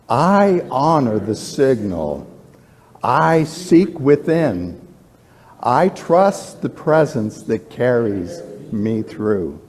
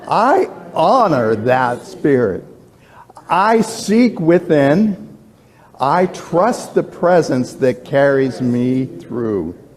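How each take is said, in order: First: It is said calmly, with ordinary energy. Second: It is said with more gusto and energy.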